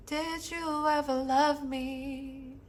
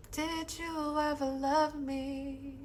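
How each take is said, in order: First: Higher and soft, slow and aching; soft heartbroken plea. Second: Higher, even softer, slow; fading echo. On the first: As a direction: ask slowly, as if afraid of the answer. Recites song's heartbroken words. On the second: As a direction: let it fade away like an echo. Echoes the same line softer. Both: Acted.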